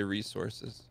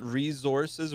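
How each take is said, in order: First: Resources said ree-SOR-siz, a hissing s sound. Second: Resources said ree-ZOR-siz, a buzzing z sound. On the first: Host contrasts the other way, says resources with an s. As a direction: say resources with a crisp s in the middle. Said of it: "do you ever say resources". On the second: Host asks guest about pronunciation, says resources with a z. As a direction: say resources with a z in the middle, Canadian way. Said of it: "call it resources with a Z". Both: Shown as a demonstration.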